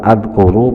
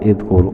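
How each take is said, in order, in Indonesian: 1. Kata ini diawali dengan vokal a. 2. Kata ini diawali dengan vokal i. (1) "bukan adkuru" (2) "bukan idkur"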